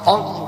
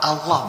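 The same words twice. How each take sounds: First: The first vowel is a rounded 'o' sound. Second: The first vowel is an open 'a' sound. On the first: The speaker calls it wrong. "bukan o" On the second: The speaker calls it right. "dibaca fathah, bukan o, tapi a"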